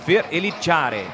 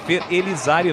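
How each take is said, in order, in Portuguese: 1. O nome é dito com sotaque de portunhol. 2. O nome é dito com sotaque de português puro. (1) "tem que ter o sotaque portunhol" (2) "não é Fer Elizari não"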